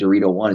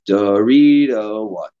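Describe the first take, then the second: First: The phrase is said with an ordinary rhythm. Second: The phrase is said with an unusual rhythm. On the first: "instead of saying" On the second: "changing your cadence ... so that it sounds abnormal"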